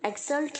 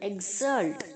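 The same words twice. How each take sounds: First: The x is said with a ks sound. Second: The x is said with a gz sound. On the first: The speaker calls it wrong. "एक्सल्ट नहीं" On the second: The speaker calls it right. "जी और जेड की तरह pronounce होना चाहिए"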